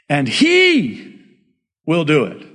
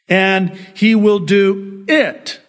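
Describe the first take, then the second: First: The word 'he' is said with stress. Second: The word 'he' is said without stress. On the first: The speaker calls it right. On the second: The speaker calls it wrong.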